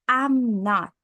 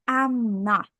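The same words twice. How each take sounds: Both takes have the same delivery.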